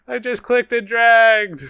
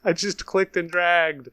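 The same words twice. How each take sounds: First: High, loud, drawn-out wail of exasperation; real outburst, stretched and high-pitched; exasperated yell. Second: Higher-pitched exasperated protest; real exasperation, not yet shouting. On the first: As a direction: yell it in disbelief at your own blunder. Repeats it louder, upset at misclick. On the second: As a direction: protest your own silly mistake, voice going up. Upset at own misclick, first take. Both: Real, not acted.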